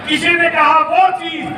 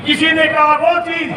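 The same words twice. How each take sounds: The two takes are said the same way.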